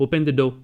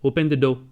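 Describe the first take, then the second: First: It is said as a firm order. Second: It is said as a firm order.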